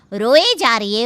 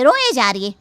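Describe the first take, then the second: First: Loud, exasperated रोए जा रही है; fed-up रोए stressed; annoyed complaint. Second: Loud, exasperated रोए जा रही है again pressed; fed up, रोए stressed; annoyed repeat. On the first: Wife complaining about crying mother-in-law, loud. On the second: Wife repeating her complaint to husband, loud. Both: Acted.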